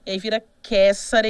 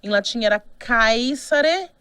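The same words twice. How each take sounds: First: "caesare" said ke-sa-re, with a plain e and no diphthong; Italian pronunciation. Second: "caesare" said slowly, kai-sa-re, Latin diphthong ai; Latin pronunciation. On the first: Teacher shows the later form: "caesare" with a monophthong e. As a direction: say "caesare" with a simple open E. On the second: Teacher shows the Latin form: slow "caesare" with ai. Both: Shown as a demonstration.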